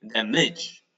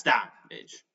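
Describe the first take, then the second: First: "the midge" with the weight wrongly on "midge"; stress on second syllable. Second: "that midge" as DAM-age, weight up front; stress on first syllable. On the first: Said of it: "if the accent was here". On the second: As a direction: stress "that", leave "midge" light. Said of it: "but it's not like that". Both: Shown as a demonstration.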